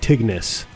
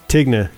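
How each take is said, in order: First: The final s sound is pronounced. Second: The final s sound is silent. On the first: This is how locals in Ogden would say it. "In Ogden, we would pronounce it Tignes" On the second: This is how the French would say it. "except the S French. Would probably be silent"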